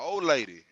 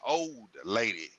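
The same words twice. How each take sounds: First: The d in old is dropped, sounding like ol'. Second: The d in old is clearly and fully pronounced. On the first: A casual way of referring to one's partner. "my old lady" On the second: Calling her an elderly woman. "they gonna feel like you saying old lady, O L D"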